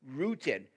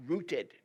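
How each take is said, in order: Both takes have the same delivery.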